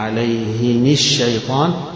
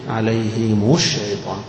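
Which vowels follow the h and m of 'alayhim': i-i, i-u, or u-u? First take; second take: i-i; i-u. First: Both the h and the m take an i vowel. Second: The h takes i and the m takes u. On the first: "هيكسر الاثنين" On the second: "عليهم مكسورة واللي بعدها مضمومة"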